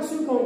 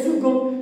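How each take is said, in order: First: The middle consonant sounds like an s. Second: The middle consonant sounds like a k. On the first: The speaker calls it wrong. "il n'y a pas second" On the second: The speaker calls it right. "il y a second ... se prononce que"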